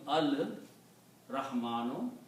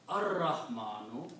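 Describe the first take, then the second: First: The L sound is clearly heard before the R. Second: The L is absorbed into a doubled R sound. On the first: "so it becomes al Rahmanu" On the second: "this Ra is a Shamsi letter, so you pronounce Ar Rahmanu"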